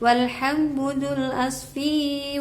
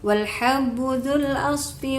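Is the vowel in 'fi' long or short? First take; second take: long; short. First: The vowel in fi is drawn out long. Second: The vowel in fi is kept short. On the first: The speaker calls it wrong. "fi-nya tadi wijya membacanya dipanjangkan" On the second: The speaker calls it right. "fi-nya cukup uh, satu harokat aja"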